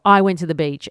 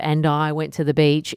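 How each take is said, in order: First: It is said with strong, high energy. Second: It is said calmly, in a conversational flow.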